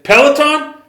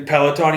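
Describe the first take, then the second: First: Much higher, louder disbelieving echo; incredulous. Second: Said in the usual way. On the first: Retold or imitated. Dana hearing the sponsor's name, disbelieving. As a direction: toss the name back in shock. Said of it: "He's like". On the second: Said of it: "And he's like".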